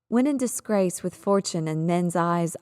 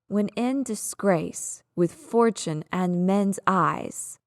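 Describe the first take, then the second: First: The stresses are light and hard to hear. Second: The stressed syllables are strongly exaggerated. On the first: "When I say that line normally, the stress pattern is there, but it's a bit difficult to hear" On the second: "let me over-exaggerate this for you"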